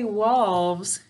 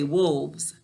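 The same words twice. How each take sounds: First: Vowel sounded out to match the spelling. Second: Vowel said the ordinary, natural way. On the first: This form helps to spell the word. "So we say wolves to spell it" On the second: This is how it is said in normal speech. "When I'm talking, I say wolves"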